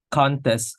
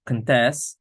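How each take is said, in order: First: "contest" with a strong CON, first syllable; stress on first syllable. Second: "contest" with light first syllable, strong TEST; stress on second syllable. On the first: Student explaining word stress shows the noun contest, stressed on the first syllable. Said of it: "the first syllable is more prominent". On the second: Student explaining word stress shows the verb contest, stressed on the second syllable. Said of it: "the second syllable is more prominent". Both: Shown as a demonstration.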